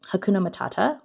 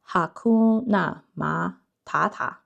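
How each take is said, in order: First: It is said with an English pronunciation. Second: It is said with a Chinese pronunciation.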